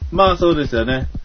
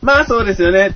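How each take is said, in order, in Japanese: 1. いちばん低い高さと大きさで言っています。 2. いちばん高い高さと大きさで言っています。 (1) "音を上げていくだけ" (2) "音を上げていくだけ"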